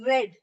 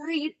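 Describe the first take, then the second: First: It is said with a short e vowel. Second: It is said with a long ee vowel. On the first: The past participle form of the verb. "in this answer I'll read read" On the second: The present form of the verb. "Here we will read read"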